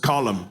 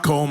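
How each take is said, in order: First: The name is said as two syllables. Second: The name is said as one syllable. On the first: The speaker calls it right. "It's Colum. It's an Irish name" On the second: The speaker calls it wrong. "It's not Colm O'Driscoll"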